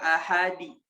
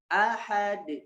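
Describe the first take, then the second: First: An extra i vowel follows the final d. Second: The final d bounces with no vowel after. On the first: The speaker calls it wrong. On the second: The speaker calls it right.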